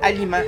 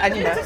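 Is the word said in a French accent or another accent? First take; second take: another accent; French. First: The word is said in a non-French accent. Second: The word is said in a French accent. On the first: "avant, je disais « aliment »" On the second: "les Français disaient « aliment »"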